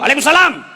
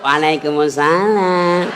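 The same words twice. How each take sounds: First: It is said in a firm, loud voice. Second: It is said in a soft, lilting voice.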